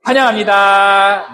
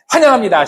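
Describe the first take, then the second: First: Drawn-out high welcome; slow bright welcome. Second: Bright welcome. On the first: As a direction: stretch the welcome slowly and warmly. (천천히 밝게 "환영합니다") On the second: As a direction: welcome said high and loud. (밝게 환영하는 인사) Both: Shown as a demonstration. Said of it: "이렇게 하는 거예요".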